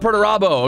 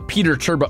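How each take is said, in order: First: The name is said as one word, Perturabo. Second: The name is said like two words, Peter Turbo. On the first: The speaker calls it right. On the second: The speaker calls it wrong.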